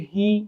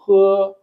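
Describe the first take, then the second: First: The vowel is a long 'ee' sound. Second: The vowel is a short 'uh' sound. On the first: The speaker calls it wrong. "अगर आप इसको रीड करेंगे तो आप कहेंगे ही" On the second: The speaker calls it right. "Chinese में रीड करते हैं तो ... पढ़ते हैं ह"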